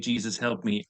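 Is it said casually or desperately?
casually. It is said lightly and casually.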